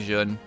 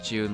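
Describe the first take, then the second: First: The name is said like 'Zun'. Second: The name is said like the month June. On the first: "I usually call her Jun. Like Zun, basically" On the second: "Like June, like the month"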